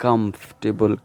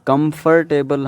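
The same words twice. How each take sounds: First: "Comfortable" shortened to KUMF-tuh-bul; "Comfortable" with f running straight into t; correct pronunciation. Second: "comfortable" in four syllables, kum-fur-TAY-bul; everyday Urdu-Hindi way of "comfortable", every syllable sounded; local pronunciation. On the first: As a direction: repeat "Comfortable" slowly, dropping the R. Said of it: "it's comfortable". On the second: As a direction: say "comfortable" with R sounded, ending like table. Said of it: "comfortable हम बोलते हैं". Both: Shown as a demonstration.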